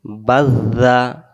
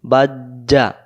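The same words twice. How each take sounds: First: বাজ্জা drawn out with a soft tongue-tip z; slow correct বাজ্জা with zal. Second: বাজ্জা with a hard j, at normal pace; quick বাজ্জা as jim, wrong; wrong jim sound. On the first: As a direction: stretch বাজ্জা gently, soft z. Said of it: "জিহ্বার আগা থেকে নরম করে". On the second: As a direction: say বাজ্জা with j, the mistake. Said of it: "জিম অক্ষর হয়ে যাবে". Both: Shown as a demonstration.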